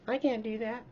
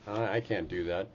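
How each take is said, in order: First: It is said in a squeaky Mickey Mouse voice. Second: It is said in the speaker's normal voice.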